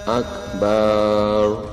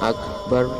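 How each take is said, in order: First: The vowel in the last syllable is drawn out long. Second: The vowel in the last syllable is kept short. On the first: It means a drum that is struck. The speaker calls it wrong. "Ketika dibaca panjang akbar, nah itu artinya beduk" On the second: It means most great. The speaker calls it right. "Kalau akbar maha besar"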